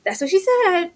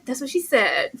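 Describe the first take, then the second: First: That's what she said, pitched up high; high joking quote. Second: Said in the usual way. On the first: Shown as a demonstration. Teasing a cohost with a joke line, high and loud.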